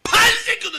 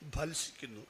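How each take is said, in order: First: The first syllable bursts out with strained force. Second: The word is said in a plain, even way. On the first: "ബാ പറയുമ്പോൾ വയനാടൻ ചുരം കയറുന്ന പോലെ പറഞ്ഞോളാം" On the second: "അങ്ങനെയൊന്നും പറയാറില്ല"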